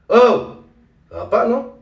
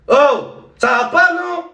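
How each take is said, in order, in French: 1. La réplique est dite trop doucement et trop calmement. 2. La réplique est dite de manière exagérée, surjouée. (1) "un peu trop doux, un peu trop calme" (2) "c'est trop surjoué"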